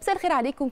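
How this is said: It sounds warm, casual and familiar. The speaker sounds familiar with the listeners. The speaker calls it right. "لازم اكون واخد على الناس كده،"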